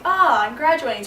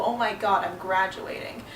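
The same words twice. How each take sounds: First: Higher, louder burst of excitement; excited realization. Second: Understated dread, softening toward the end; mildly daunted. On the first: Retelling her first thought of graduation, excited. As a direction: exclaim it in happy disbelief, higher and louder. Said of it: "went from being like". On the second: Retelling how graduation turned daunting, mildly overwhelmed. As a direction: let it sink in, a touch overwhelmed. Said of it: "became a bit more daunting". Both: Retold or imitated.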